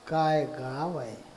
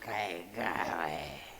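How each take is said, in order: First: It sounds admiring and full of praise. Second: It sounds scornful and full of disapproval.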